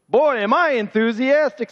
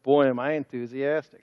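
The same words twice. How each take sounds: First: It is said loudly, with much force. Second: It is said quietly, without much force. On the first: The speaker calls it right. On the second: The speaker calls it wrong.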